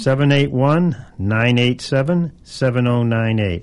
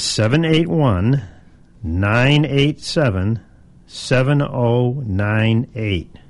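First: The number is said quickly. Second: The number is said slowly.

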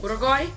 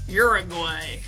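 First: It is said with a non-American accent. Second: It is said with an American accent.

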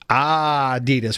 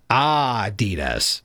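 First: The stress is on the first syllable. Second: The same.

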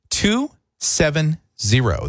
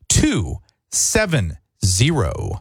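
First: It is said at normal speed. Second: It is said slowly.

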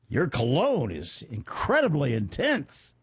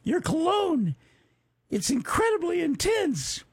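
First: It is said in the man's normal voice. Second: It is said in an imitated girlish voice.

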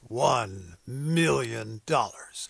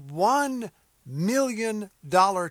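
First: It is said in a dramatic movie announcer voice. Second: It is said in a normal speaking voice.

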